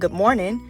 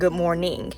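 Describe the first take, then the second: First: The final -ing sound is clipped and relaxed. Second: The final -ing sound is fully and crisply pronounced. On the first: "I'm not saying good morning" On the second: "emphasize that ing at the end"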